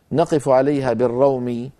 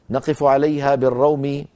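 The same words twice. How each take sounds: The two takes are said the same way.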